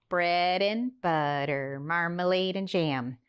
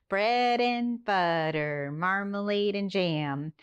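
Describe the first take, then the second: The two takes are said the same way.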